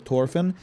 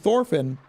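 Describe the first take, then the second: First: The name begins with a plain t sound. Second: The name begins with a th sound. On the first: This follows modern Nordic languages. The speaker calls it wrong. "they said it should be Tors or Torfinn" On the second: This follows ancient Norse languages. The speaker calls it right. "it would be pronounced with the th sound"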